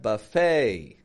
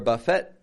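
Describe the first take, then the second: First: The word ends in a vowel, no T sound. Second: The word ends with a pronounced T sound. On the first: The speaker calls it right. "I'm not pronouncing that T on the ending" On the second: The speaker calls it wrong. "I'm not saying buffet or buffet"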